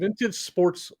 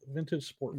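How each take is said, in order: First: The second word ends with an s sound. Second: The second word ends without an s sound. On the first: The speaker calls it wrong. "I say sports" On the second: The speaker calls it right. "it's a silent S"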